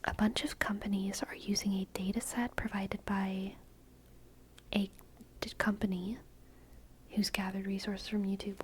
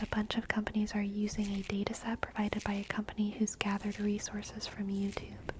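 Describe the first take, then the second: First: It is read slowly and deliberately. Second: It is read at normal, quick speed.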